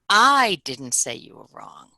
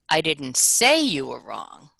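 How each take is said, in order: First: The word "I" carries the stress. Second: The word "say" carries the stress. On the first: Someone else said it. "So the first time I'll emphasize I" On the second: It was suggested rather than said outright. "Now I'll emphasize say"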